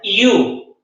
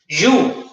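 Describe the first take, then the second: First: It starts like an i and has no o. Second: It starts with a Spanish y and has an o. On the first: The speaker calls it right. "Así es como se pronuncia, iu" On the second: The speaker calls it wrong. "el error de pronunciarlo you, como si fuese de juego yubi"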